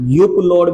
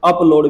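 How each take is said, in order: First: The word begins with a 'yoo' sound. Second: The word begins with an 'ah' sound. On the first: "युप load भी पढ़ सकते हैं" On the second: "लेकिन लोग जो बोलते हैं स्पोकन में अप आता है"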